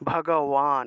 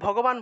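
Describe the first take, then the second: First: The consonant before the last syllable sounds like w. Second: The consonant before the last syllable sounds like b. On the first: This is the Sanskrit way of saying it. "সংস্কৃত উচ্চারণ হলো ভগবান ভগবান এইভাবে" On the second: This is the everyday Bengali way of saying it. "আমরা তো ভগবান বলি বাংলায়"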